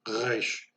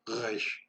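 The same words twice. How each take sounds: First: The R is a rough sound from the throat. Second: The R is a rough sound from the throat.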